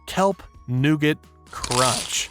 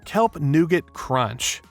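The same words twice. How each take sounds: First: The phrase is said slowly and drawn out. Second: The phrase is said at a normal pace.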